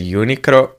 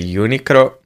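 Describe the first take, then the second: First: The name is said with a Japanese pronunciation. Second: The same.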